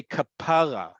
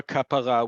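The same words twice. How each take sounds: First: Kapara said ka-PA-ra, stress on the middle; stress on second-to-last syllable. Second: Kapara with the stress on the last syllable, ka-pa-RA; Hebrew final stress. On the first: Teacher proving it is not Hebrew, kapara stressed on PA. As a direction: hit the "PA" of kapara, let "ra" fall. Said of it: "emphasis is on the second to last syllable". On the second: Teacher naming the Hebrew word for atonement, Kapara stressed on its last syllable. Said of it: "the emphasis is always on the last syllable". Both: Shown as a demonstration.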